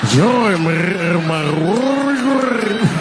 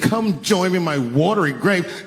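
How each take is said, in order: First: It is said with a rolling, gurgling throat. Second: It is said in a plain voice.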